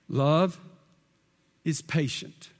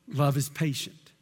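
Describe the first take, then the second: First: It is read slowly and deliberately. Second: It is read at a normal pace.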